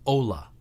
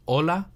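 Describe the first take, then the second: First: Ola with o gliding into oo; English-accented ola. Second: Hola with a short pure o; hola in a Spanish accent. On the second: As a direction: say hola with no oo after the o. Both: Shown as a demonstration. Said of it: "the difference between hola and ola".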